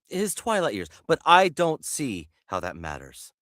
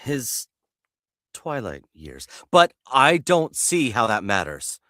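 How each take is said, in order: First: The line is delivered a bit too fast. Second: The line is delivered slower, dragged out.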